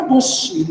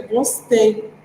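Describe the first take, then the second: First: "gostinho" said as "gosti", ending in a stressed i; child's verb error. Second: Said in the usual way. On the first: Shown as a demonstration. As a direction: say "gostinho" as gosti, the child's wrong past tense. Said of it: "como eu vou falar, por exemplo". ("gostinho" dito "gosti", com i tônico no final) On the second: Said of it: "Pra poder ficar certinho".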